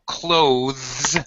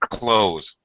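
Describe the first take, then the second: First: The th sound is clearly pronounced. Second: The th sound is dropped entirely. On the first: "with the th, th sound, but that's proper dictionary pronunciation" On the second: "We usually pronounce it like close"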